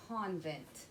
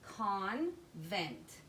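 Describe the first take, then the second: First: Said in the usual way. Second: "Convent" split into con, pause, vent; a clear gap between the halves of "Convent"; syllable by syllable. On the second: Shown as a demonstration. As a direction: read "Convent" slowly as two separate syllables. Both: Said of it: "put the first syllable and the second syllable together".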